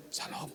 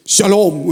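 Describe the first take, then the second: First: Very faint, voiceless greeting; imitating a vanished voice; lost-voice greeting. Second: Loud, ringing greeting; re-enacted sudden full voice; voice bursting out. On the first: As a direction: greet with your voice almost gone. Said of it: "Bapak hilang suaranya". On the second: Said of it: "Keluar saudara".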